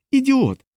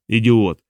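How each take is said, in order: First: High-pitched, exasperated insult. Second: Understated angry curse; cursing. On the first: Diana scolds a henchman for his question, high and exasperated. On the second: Hermund curses his henchman's suggestion, irritated. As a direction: spit out the insult at usual pitch. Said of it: "вилаявся Гермунд". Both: A narrator's reading.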